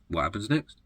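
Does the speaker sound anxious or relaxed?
relaxed. The voice sounds relaxed and carefree. The future can be trusted to unfold. "Or do you live in a state of trust?"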